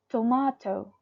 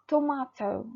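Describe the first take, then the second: First: It is said in a British accent. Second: It is said in a British accent.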